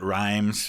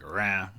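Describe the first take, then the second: First: It has an eye vowel and ends in z. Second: It has a nasal vowel and no final z. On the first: This is how the narrator said it. "I know he pronounced it rhymes" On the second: This is closer to the French. "probably more close in French to like rin"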